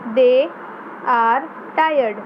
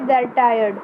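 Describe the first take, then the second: First: 'They' and 'are' are said as separate words. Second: 'They' and 'are' merge into one syllable.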